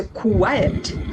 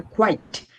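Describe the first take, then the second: First: First "কোয়াইট" stretched into two syllables, ku-wai-et; quiet pronunciation. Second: Second "কোয়াইট" short, one syllable kwite; quite pronunciation. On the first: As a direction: draw "কোয়াইট" out as kwai-et. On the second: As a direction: clip "কোয়াইট" to a single kwite. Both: Shown as a demonstration. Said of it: "কোয়াইট আর কোয়াইট দুটো কিন্তু আলাদা".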